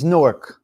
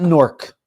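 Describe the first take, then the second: First: Newark spelled out as new-urk; right Newark. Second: Newark clipped to nork; wrong Newark. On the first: Correcting viewers on Newark, firm new-urk. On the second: Showing viewers the mistake, Newark as nork. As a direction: Newark said nork, one quick syllable. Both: Shown as a demonstration. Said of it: "Say it right".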